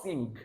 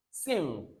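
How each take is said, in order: First: "sing" with a hard g released at the end; "sing" closed on an audible g; wrong sounded g. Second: "sing" ending on ng, g unsounded; "sing" with no hard g at the end; silent g. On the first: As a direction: mispronounce "sing" as sing-g. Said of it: "not sing". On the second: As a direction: let "sing" fade out on the ng hum. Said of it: "don't pronounce the G sound". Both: Shown as a demonstration.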